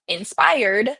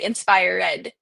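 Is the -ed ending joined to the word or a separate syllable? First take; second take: joined; separate. First: The -ed ending is joined to the word. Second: The -ed ending is a separate syllable. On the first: "we would say" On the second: "he would pronounce them as ed"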